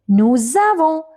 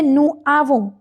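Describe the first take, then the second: First: The s is sounded and joins into avons. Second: The s is silent; the words stay separate. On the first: The speaker calls it right. "We say nous avons because S we have to connect with A" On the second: The speaker calls it wrong. "We don't say nous avons"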